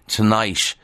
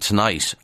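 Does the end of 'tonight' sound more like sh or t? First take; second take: sh; t. First: The final sound is a soft sh-like hiss. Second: The final sound is a crisp t. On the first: "will sound more like Dublin SH" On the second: "than the British T"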